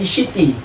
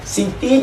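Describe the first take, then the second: First: The name begins with an sh sound. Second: The name begins with a plain s sound. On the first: "Dia jadi bunyi She" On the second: "dia tak ada C"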